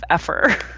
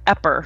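First: The middle consonant is an f sound. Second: The middle consonant is a p sound. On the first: The speaker calls it right. "instead of effer" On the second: The speaker calls it wrong. "I'm like epper instead of effer"

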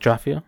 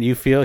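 First: The words are slurred together into one word. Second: The two words are said clearly and separately. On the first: "he's like Jafiel" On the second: "Instead of saying you feel"

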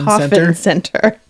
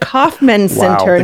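First: The first word is said like the word coffin. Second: The first word is said as the name Kauffman. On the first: This is how a child misheard the name. The speaker calls it wrong. "not the Kauffman Center. It does not look like a coffin" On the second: This is the real name of the building. The speaker calls it right. "It's the Kauffman Center"

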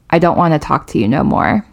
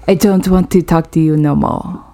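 First: It is spoken in the speaker's normal accent. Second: It is spoken in a put-on French accent.

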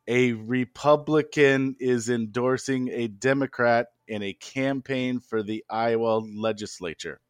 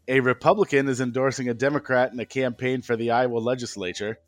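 First: It is said slowly. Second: It is said at normal speed.

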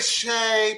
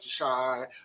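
First: The vowel sounds like the one in day. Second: The vowel sounds like the one in die. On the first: The speaker calls it wrong. "I want to say Shay" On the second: The speaker calls it right. "but shy. I got it"

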